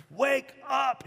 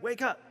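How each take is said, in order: First: Much higher, drawn-out acted call; insistent rousing. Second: Higher-pitched acted rousing call; urging awake. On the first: Jesus to disciples still asleep, more insistent acted urging. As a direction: press harder to rouse a heavy sleeper. Second, firmer try to rouse them. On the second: Jesus to sleeping disciples, first acted urging to wake. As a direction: try to rouse a sleeper without raising volume.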